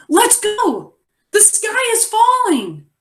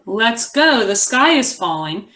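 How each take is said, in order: First: High, urgent yell-like reading; excited exclamation. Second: Said in the usual way. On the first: Shown as a demonstration. Teacher modelling exclamation for the class, excited and high. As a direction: read it with the exclamation oomph. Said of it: "you might be able to say". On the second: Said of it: "So instead of".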